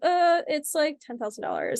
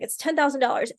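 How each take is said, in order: First: It is said with hesitation and fillers. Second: It is said firmly, without hesitation.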